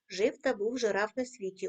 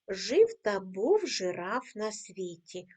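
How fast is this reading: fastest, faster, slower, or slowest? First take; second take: slower; slowest. First: The line is read a bit faster. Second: The line is read at the slowest pace. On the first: "кожного разу пришвидшуємо темп" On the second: "Ми 4 рази читаємо цю скоромовку"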